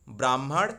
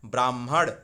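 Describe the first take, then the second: No difference in how they are said.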